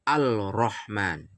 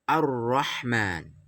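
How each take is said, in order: First: The L is pronounced clearly before the R. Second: The L disappears, merging into a doubled R. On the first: The speaker calls it wrong. "Tidak boleh dibaca Al-Rahman" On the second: The speaker calls it right. "lamnya hilang, langsung masuk ke ro"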